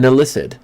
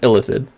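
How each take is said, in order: First: The middle consonant is an 's' sound. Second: The middle consonant is a 'th' sound. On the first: This is how half the game's voices say it. "which is how like half the game pronounces it" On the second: This is the speaker's usual pronunciation. "which is how I've always pronounced it"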